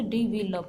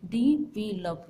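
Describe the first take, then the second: First: Said in the usual way. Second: "डी वी लव" in three separated beats; syllable by syllable. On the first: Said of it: "इसी तरह से". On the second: Shown as a demonstration. Teacher repeats the word for counting vowels, "डी वी लव" broken into syllables. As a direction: pause between the syllables of "डी वी लव". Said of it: "इसमें vowel sound कितनी बार आ रही है".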